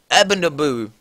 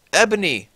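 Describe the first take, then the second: First: "Ebonaboo" read out as a garbled stumble on the name Ebony; misread name. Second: Said in the usual way. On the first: Shown as a demonstration. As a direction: trip over "Ebonaboo" as if misreading the page.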